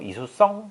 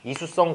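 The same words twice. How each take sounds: First: The last syllable is stressed. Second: The last syllable is not stressed. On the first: It is the biological term. The speaker calls it right. "성에다가 강세를 줘서" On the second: It sounds like a person's name. The speaker calls it wrong. "이수성이라고 읽으면 좀 이상하고"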